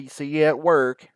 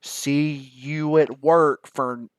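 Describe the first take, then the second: First: Louder, over-articulated repeat; exaggerated mouthing, repeated. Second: Slow, loud, over-mouthed words; exaggerated lip movement. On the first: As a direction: say it again for a lip reader, mouthing it clearly. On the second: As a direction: mouth every word big for a lip reader. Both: Shown as a demonstration. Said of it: "really have to exaggerate it on my lips".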